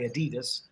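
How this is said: It is said with an American pronunciation. "Americans say Adidas"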